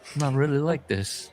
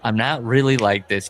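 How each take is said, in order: First: It is said in a put-on British accent. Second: It is said in the speaker's ordinary accent.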